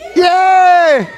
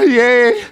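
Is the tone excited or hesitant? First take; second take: excited; hesitant. First: It is said with excited enthusiasm. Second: It is said with doubtful hesitation.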